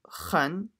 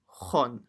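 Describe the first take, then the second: First: The syllable is said light, with a thin vowel. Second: The syllable is said heavy, with a full-mouthed vowel. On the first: The speaker calls it wrong. "It's not khan" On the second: The speaker calls it right. "So full mouth"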